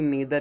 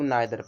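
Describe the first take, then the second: First: The first vowel sounds like 'ee'. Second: The first vowel sounds like 'eye'. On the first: "कुछ लोग नीदर भी पढ़ते हैं" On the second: "कुछ लोग नाइदर पढ़ते हैं"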